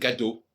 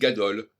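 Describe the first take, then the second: First: The final L sound is left silent. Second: The final L sound is pronounced. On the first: The speaker calls it right. "alors qu'on devrait dire gado" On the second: The speaker calls it wrong. "on dit gadol"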